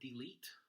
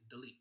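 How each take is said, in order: First: The first syllable is long with a full vowel. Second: The first syllable is short and reduced. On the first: "it takes a little longer to say it" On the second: "kind of shorten up that first syllable"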